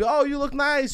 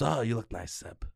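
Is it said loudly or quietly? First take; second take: loudly; quietly. First: It is said loudly and warmly. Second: It is said quietly, in a lowered voice.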